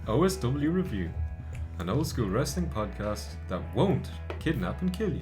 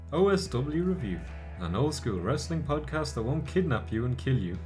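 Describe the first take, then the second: First: The word won't is emphasized. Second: The word won't is not emphasized.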